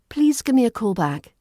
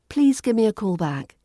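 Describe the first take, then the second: First: The words run together with reduced sounds. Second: The same.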